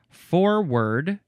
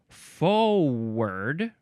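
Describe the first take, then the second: First: The first syllable has an R sound. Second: The first syllable has no R sound. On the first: "this is the first form" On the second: "No R sound there"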